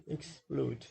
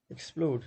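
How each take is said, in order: First: "explode" drawn out in two syllables. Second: Said in the usual way. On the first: Shown as a demonstration. Teacher showing students two syllables in "explode", syllable by syllable. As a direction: separate the two beats of "explode". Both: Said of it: "there are two syllables".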